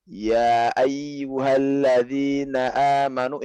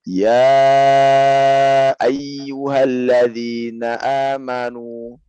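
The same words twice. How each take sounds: First: The vowel after 'ya' is held short, two counts. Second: The vowel after 'ya' is held long, four counts. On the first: This is an allowed variant reading. "ini boleh ya dari sebagian riwayat daripada Imam Asim" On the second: This is the standard reading. "ya ini bacanya empat kan, standar kita ya"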